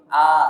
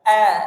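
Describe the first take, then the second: First: The vowel is a plain open a. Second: The vowel is a slightly shifted a. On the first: The speaker calls it wrong. "Dia bukan seperti A" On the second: The speaker calls it right. "tapi agak infiraf, agak A"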